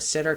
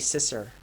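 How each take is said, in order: First: The middle consonant is a t sound. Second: The middle consonant is an s sound.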